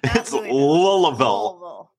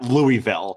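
First: The name is said the local way. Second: The name is said the non-local way. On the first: The speaker calls it right. "people from down there, it's Louisville" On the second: The speaker calls it wrong. "we got corrected several times last night at an open mic that it's not Louisville"

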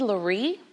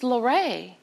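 First: The name ends with an 'ee' sound. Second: The name ends with an 'ay' sound. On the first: The accent mark on the final E is ignored. The speaker calls it wrong. "Shouldn't it be Laree?" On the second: The accent mark on the final E is read. The speaker calls it right. "it's Lorray"

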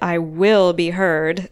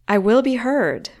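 First: The stress is on "will". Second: The stress is on "heard".

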